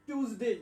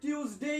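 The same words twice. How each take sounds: First: টিউজডে as "tooz-day", last glide kept light; no y in টিউজডে, ending cut short; short final vowel. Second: টিউজডে as "tyooz-day", last glide kept light; y glide in টিউজডে, ending cut short; short final vowel. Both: Shown as a demonstration. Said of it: "রস্যইটা একটু কম উচ্চারণ করবেন".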